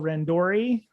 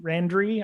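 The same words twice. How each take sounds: First: "Randori" with a full OR: ran-DOR-ee; middle syllable "DOR". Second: "Randry" squeezed to RAN-dree; "Randry" stressed at the front, RAN-dree; reduced middle syllable. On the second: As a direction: say "Randry" with the middle vowel swallowed. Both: Shown as a demonstration. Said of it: "put the emphasis on the right syllable".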